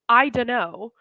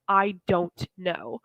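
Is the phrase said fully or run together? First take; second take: run together; fully. First: The words are run together and shortened. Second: Each word is said fully and separately.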